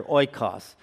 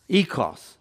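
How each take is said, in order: First: "oikos" said OY-kahs, English way; English pronunciation. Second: "oikos" said as EE-kos, Greek way; Greek pronunciation. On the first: Preacher giving the English, "oikos" as OY-kahs. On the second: Preacher giving the Greek, "oikos" as EE-kos. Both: Shown as a demonstration. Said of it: "or as we might say here".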